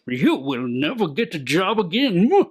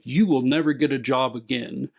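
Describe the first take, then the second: First: It is said in a cartoon-villain voice. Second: It is said in a normal voice.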